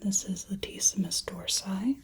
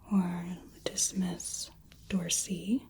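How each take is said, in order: First: It is said with an English-style pronunciation. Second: It is said with a Latin-style pronunciation. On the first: "a little more English pronunciation" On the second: "versus the original Latin"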